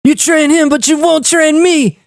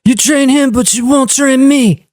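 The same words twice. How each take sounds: First: Higher, hammed-up kid voice; performed on request, higher and slower; encore kid impression. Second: Lightly voiced young Frank Dukes, high; a hint of a petulant movie kid; movie kid line. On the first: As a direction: whine it like the young Frank Dukes. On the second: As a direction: mimic the kid's whiny complaint. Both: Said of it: "They want an encore".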